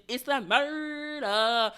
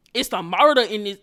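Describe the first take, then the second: First: "murder" stretched out very slowly; drawn-out MURDER. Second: Loud punch on "murder"; emphatic exclamation. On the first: Telling viewers about the bloody nose, drawn-out "murder". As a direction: drag out "murder" for dramatic effect. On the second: Telling viewers about the bloody nose, emphatic exclamation. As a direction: hit "murder" hard and loud. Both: Retold or imitated. Dramatizing the nosebleed scene.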